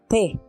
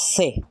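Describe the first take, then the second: First: The first consonant is a stop. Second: The first consonant is a fricative. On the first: "tiene un sonido oclusivo" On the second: "su sonido ya es fricativo"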